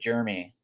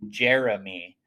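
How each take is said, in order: First: The name is said plainly, without extra force. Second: The name is said with a strong, forceful push. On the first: The speaker calls it wrong. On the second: The speaker calls it right.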